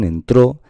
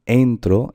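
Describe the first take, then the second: First: "entró" raised on the last "tró"; stress on final syllable. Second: "entro" as EN-tro; stress on first syllable. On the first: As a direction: punch the end of "entró". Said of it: "esta es la sílaba tónica". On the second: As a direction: lean on the opening "en" of "entro". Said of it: "la intensidad está en entro". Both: Shown as a demonstration.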